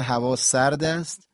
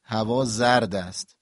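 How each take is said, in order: First: هوا سرد است with a clear hissed s in سرد; s sound. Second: هوا زرد است slowly, with a buzzed z in زرد; z sound. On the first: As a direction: stress the unvoiced s of سرد. (سرد با سین واضح) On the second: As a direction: stress the voiced z of زرد. (زرد با ز واضح) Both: Shown as a demonstration. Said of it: "سین و ز اینا نزدیک همن".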